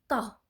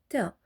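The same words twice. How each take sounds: First: The t is heavy, with the back puffed. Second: The t is light, with a relaxed mouth. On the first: The speaker calls it right. "vous devez gonfler l'arrière de votre bouche" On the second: The speaker calls it wrong. "Beaucoup de personnes la prononcent Ta, alors que c'est pas correct"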